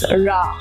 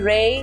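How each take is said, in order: First: The first vowel sounds like 'rah'. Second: The first vowel sounds like 'ray'. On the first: The speaker calls it right. "but it's Ra" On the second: The speaker calls it wrong. "It cannot be Ray"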